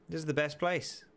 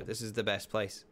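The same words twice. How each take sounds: First: Higher, more thrilled second take; excited. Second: Said in the usual way. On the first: Real, not acted. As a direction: say it again with real delight.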